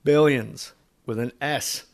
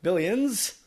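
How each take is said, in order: First: "Billions" with a drawn-out S at the end. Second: "Billions?" high and rising, final S held long; stretched S. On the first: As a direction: say "Billions" hissing the final S long. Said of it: "a way to say billions". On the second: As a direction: say "Billions?" pitched up with a hissing S. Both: Shown as a demonstration.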